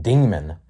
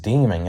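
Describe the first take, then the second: First: Said in the usual way. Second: "demon" ending in an ing sound; slurred word ending. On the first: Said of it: "I mean, demon". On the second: Real, not acted. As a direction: say "demon" as "deeming". Slip, corrects it right after.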